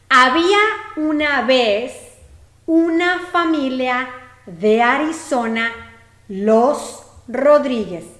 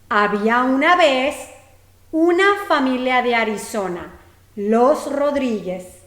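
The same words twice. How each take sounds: First: The sentence is spoken at a slower pace. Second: The sentence is spoken at a faster pace.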